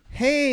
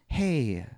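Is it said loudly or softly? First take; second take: loudly; softly. First: It is said loudly and harshly. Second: It is said softly and gently.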